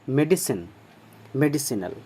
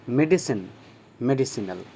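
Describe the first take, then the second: The two takes are said the same way.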